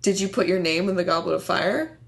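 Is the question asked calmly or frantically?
calmly. The question is asked in a calm voice.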